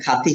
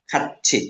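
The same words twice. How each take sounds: First: The mistaken reading খাতি, ending in "ti"; খাতি as khaa-ti, without the chh sound. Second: খাচ্ছি as khat-chhi, following the batchim rule; খাচ্ছি with CHH. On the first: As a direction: say খাতি with a plain "t" in the middle, no "ch". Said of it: "এটা খাতি হবে না". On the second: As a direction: say খাচ্ছি with a doubled aspirated "chh". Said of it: "বাচ্চিমের রুলসে পড়ছি". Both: Shown as a demonstration.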